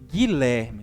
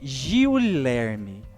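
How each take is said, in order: First: The u after the g is silent. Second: The u after the g is sounded. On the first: The speaker calls it right. "Nós falamos Guilherme. Então, nós pronunciamos um único som" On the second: The speaker calls it wrong. "Nós não falamos Giulerme"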